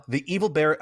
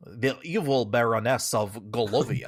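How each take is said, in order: First: Said in the usual way. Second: Put-on weird Swedish-French hybrid accent; over-the-top French accent. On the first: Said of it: "I'm gonna have to". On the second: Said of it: "like, super French all of a sudden".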